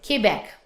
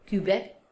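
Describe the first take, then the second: First: QUEBEC as "kay-BEK", falling; French pronunciation. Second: QUEBEC as "kyu-bek", softer; English pronunciation. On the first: Teacher correcting the English form, French pronunciation. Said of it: "we pronounce". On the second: Teacher showing what to avoid, English pronunciation. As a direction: say Quebec with "kyu", low and soft. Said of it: "Let's not say Quebec". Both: Shown as a demonstration.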